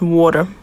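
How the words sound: It is said in a Boston accent.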